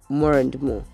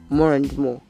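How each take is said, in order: First: The words run together with a linking R. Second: The words run together with a linking R.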